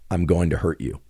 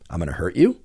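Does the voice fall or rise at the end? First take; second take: fall; rise. First: The voice falls at the end. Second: The voice rises at the end. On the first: The speaker is stating a threat. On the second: The speaker is asking.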